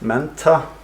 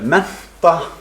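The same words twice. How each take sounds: First: The n before the stop is voiced. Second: The n before the stop is voiceless. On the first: This marks a speaker from the north. "voiced sonorant before an aspirated stop" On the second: This is the usual pronunciation in the country. "the usual pronunciation"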